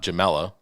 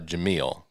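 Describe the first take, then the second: First: The name ends with an extra vowel sound. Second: The name ends on a consonant sound. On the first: The speaker calls it wrong. "not Jamela" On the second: The speaker calls it right. "It's uh, Jameel"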